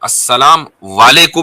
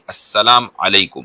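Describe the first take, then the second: First: The second word starts with a w sound. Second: The second word starts with a vowel sound. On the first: The speaker calls it wrong. "नहीं" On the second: The speaker calls it right. "ये है"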